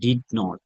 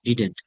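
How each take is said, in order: First: It is said as two separate full words. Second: It is contracted into one short word.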